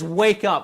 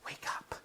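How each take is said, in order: First: It is said loudly and forcefully. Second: It is said softly and gently. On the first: There is urgency and no more patience. "you're no longer using an inside voice" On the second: The sleeper is being roused kindly. "you'd tap them gently"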